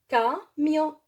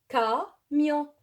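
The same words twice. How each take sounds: Both takes have the same delivery.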